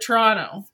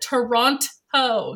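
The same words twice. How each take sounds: First: The second T sound is dropped. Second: The second T sound is clearly pronounced. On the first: This is how people from Ontario say it. The speaker calls it right. "anybody from Ontario calls it Toronto" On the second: This is how people from outside Ontario say it. The speaker calls it wrong. "She pronounced the second T"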